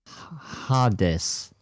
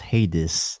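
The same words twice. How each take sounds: First: The name is said the Greek way. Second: The name is said the English way. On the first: "in Greek, ... it's to be pronounced as Hades" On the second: "in English, it's pronounced Hades"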